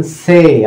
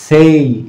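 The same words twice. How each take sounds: First: "সে" drawn out on a plain "এ", no i-glide; pure "এ" ending. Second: "সেই" with an added short "ই" after the e; "এই" glide ending. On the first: Teacher showing the usual Bengali reading, pure "এ" ending. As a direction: hold the vowel of "সে" without an "ই" after it. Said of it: "আমরা এটা সে বলি". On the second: Teacher showing the disputed reading, "এই" glide ending. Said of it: "অনেকে এই সাউন্ডও নিয়ে আসে". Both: Shown as a demonstration.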